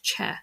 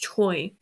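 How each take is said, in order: First: The name ends in an 'eh' vowel sound. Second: The name ends in an 'oy' vowel sound. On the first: This is how native speakers say it. The speaker calls it right. "the correct pronunciation" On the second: This is how the spelling suggests reading it. The speaker calls it wrong. "you would think it's Choi"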